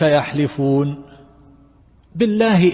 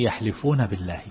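First: There is a pause after the first word. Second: The two words run together without a pause. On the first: The oath phrase is made to begin with the second word. The speaker calls it wrong. "فهذا تلاعب بالقرآن، فجعله هكذا قسما بالله" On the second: The second word belongs with the verb of swearing. The speaker calls it right. "وهي يحلفون بالله"

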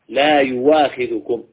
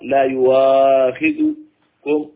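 First: The vowel after the hamza is held short. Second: The vowel after the hamza is held medium length. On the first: The speaker calls it right. "لا يجري فيها إلا القصر" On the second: The speaker calls it wrong. "ولا يصح ولا يجوز التوسط"

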